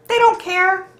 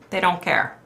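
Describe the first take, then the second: First: "They don't care" thrown up high; emphatic. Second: Said in the usual way. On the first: Retold or imitated. Retelling her angry email reply, pitched up high. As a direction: fling "They don't care" up in mock outrage.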